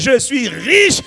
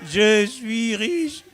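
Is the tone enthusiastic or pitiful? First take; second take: enthusiastic; pitiful. First: It is said with confident, lively enthusiasm. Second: It is said in a weak, pleading tone. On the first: The speaker calls it right. "On dit avec enthousiasme" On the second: The speaker calls it wrong. "on ne parle pas comme ça"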